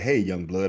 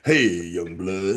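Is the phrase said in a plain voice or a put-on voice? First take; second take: plain; put-on. First: It is said in an ordinary, plain voice. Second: It is said in an exaggerated, put-on voice. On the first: The speaker calls it wrong. "I can't just say" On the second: The speaker calls it right. "I got to say it with an act"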